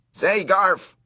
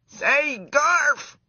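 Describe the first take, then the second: First: High, loud squeaky call. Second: Very high, loud squeaky shout; top of his voice. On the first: Mouse trying to get the boy's attention, squeaky call. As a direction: call the boy's name to get his notice. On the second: Desperate mouse shouting at the boy, full-voiced squeak. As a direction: yell with everything a mouse has. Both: A narrator's reading. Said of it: "at the top of his mouse voice".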